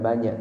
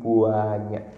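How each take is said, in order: First: The word is said plainly, without stretching. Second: The first syllable is stretched with an emphatic vowel. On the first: There are many. "bukan banyak" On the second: There are so many they cannot be counted. "tapi banyak. Beda banyak sama buah buahnya"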